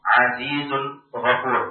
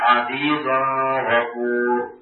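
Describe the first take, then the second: First: The n sound is pronounced clearly before gh. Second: The n sound blends into the following gh. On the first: The speaker calls it right. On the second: The speaker calls it wrong.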